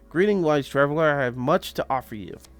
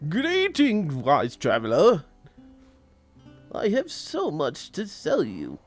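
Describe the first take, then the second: First: It is read in the speaker's normal voice. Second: It is read in a put-on fantasy character voice.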